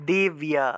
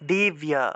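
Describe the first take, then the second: First: The b is followed by a clear y-glide. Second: The same.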